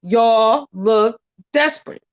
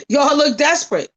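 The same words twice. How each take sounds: First: Said in the usual way. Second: Laughing, mocking repeat. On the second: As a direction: repeat it through a laugh, pitched up. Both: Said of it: "I said".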